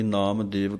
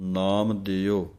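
First: The second word ends with a 'v' sound. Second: The second word ends with a short 'o' sound. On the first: The speaker calls it wrong. "ਕਈ ਨਾਮ ਦੇਵ ਕਹਿ ਦਿੰਦੇ ਹਨ" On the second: The speaker calls it right. "ਨਾਮ ਦਿਓ ਇਹ ਪਾਠ ਹੈ"

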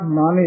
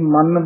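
First: The word is said softly with a short n. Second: The word is said hard with a doubled n. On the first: The speaker calls it right. "ਇਸੇ ਤਰ੍ਹਾਂ ਹੀ ਪੋਲਾ ਬੋਲਣਾ" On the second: The speaker calls it wrong. "ਕਈ ਮਨ ਬੋਲ ਜਾਂਦੇ ਹਨ"

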